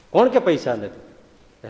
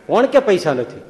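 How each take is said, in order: First: Drawn out, each word weighed; slow deliberate retort. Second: Sharp retort. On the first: Swami slowly teasing poor Mavji: slow, knowing question. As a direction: stretch it slowly, like a saint teasing. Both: Shown as a demonstration.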